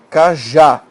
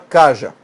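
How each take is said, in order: First: The stress is on the last syllable. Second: The stress is on the first syllable. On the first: The speaker calls it right. "você fala cajá, sílaba tônica está aqui" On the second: The speaker calls it wrong. "você não fala caja"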